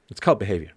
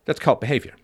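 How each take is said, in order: First: Whispered repeat of "cult behavior". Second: Said in the usual way. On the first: Real, not acted. Repeating his point to listeners in a whisper.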